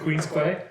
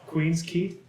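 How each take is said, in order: First: The last word is pronounced like 'kway'. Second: The last word is pronounced like 'key'.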